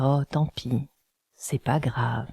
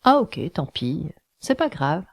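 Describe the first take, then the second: First: It is said in a sad voice. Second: It is said in a cheerful voice.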